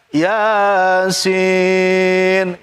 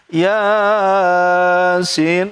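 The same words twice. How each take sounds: First: The second syllable, sin, is held long. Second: The first syllable, ya, is held long. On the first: The speaker calls it right. "Berarti yang panjang sinnya bukan ya-nya. ... itu baru benar" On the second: The speaker calls it wrong. "Siapapun salah kalau baca Yasin, salah"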